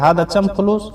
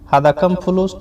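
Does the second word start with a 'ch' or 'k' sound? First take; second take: ch; k. First: The second word begins with a 'ch' sound. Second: The second word begins with a 'k' sound.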